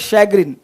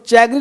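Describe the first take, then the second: First: The word begins with an 'sh' sound. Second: The word begins with a 'ch' sound. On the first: The speaker calls it right. "Next word है शैग्रिन" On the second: The speaker calls it wrong. "इसको चैग्रिन मत पढ़ना"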